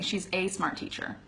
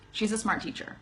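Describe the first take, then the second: First: Each word is said fully and separately. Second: The words are reduced and run together. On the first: The speaker calls it wrong. "I'm not saying" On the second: The speaker calls it right. "that's actually how we pronounce it most of the time"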